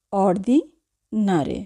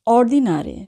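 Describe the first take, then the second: First: Ordinare slowly in two parts, "ordi... nare"; teacher's slow breakdown of ordinare, ordi, then nare; slow, split word. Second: Said in the usual way. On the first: Shown as a demonstration.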